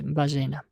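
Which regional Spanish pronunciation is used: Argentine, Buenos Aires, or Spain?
Argentine. It is said the way Argentines generally say it. "а для нас будет «бажена»"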